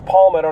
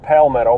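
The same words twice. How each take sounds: First: The first syllable sounds like the word palm. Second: The first syllable does not sound like palm. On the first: The speaker calls it right. "it's Palmetto, Palm, like the palm of your hand" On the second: The speaker calls it wrong. "not Palmetto"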